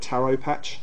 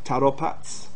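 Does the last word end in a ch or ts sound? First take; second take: ch; ts. First: The last word ends with a ch sound. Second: The last word ends with a ts sound.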